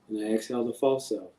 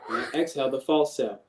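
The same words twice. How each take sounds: First: It is spoken very quietly, softly and gently. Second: It is spoken at a fuller, louder volume.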